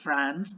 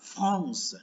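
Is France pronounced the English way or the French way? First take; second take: English; French. First: The word is said with English pronunciation. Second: The word is said with French pronunciation. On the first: "ภาษาอังกฤษออกเสียง" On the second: "ภาษาฝรั่งเศสเราจะอ่านว่า"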